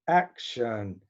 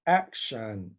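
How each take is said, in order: Both takes have the same delivery.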